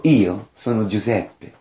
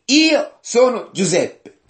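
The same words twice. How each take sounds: First: Said in the usual way. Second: High, slow declaimed self-reveal; emphatic scripture quote, drawn out; dramatic revelation. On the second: Acted. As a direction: proclaim it with pitch raised high. Joseph reveals himself to brothers.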